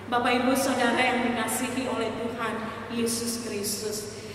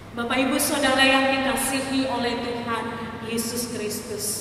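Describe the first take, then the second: Both takes have the same delivery.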